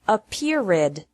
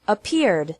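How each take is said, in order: First: The ending is said as an extra syllable. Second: The ending is a d with no extra syllable. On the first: The speaker calls it wrong. "Don't pronounce it appeared with three" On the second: The speaker calls it right. "Ed is pronounced like d with no extra syllable"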